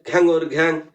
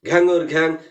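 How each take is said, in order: Both takes have the same delivery.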